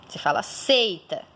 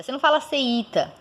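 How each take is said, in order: First: Seita with a gliding ei, two syllables; teacher shows the correct form; right pronunciation. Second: Seita with the I said as a full vowel, se-i-ta; teacher demos the wrong version; wrong pronunciation. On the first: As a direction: run the ei of seita together. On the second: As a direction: pull seita apart, give the I a full vowel. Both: Shown as a demonstration.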